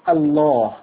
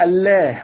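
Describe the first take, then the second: First: The L sound is heavy and emphatic. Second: The L sound is light and thin. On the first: It shows reverence for the name. "تم تفخيم حرف اللام فتنطق الله" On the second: This is the word's original pronunciation. "أصلها كانت تنطق الله"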